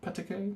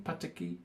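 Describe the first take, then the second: First: Pataki tried as a question, rising high and soft; Pataki, unsure rising guess. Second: Pataki settled with a falling tune, softly; Pataki, confident falling take. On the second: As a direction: land Pataki firmly with a falling end. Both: Shown as a demonstration. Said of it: "is that how you pronounce her name?".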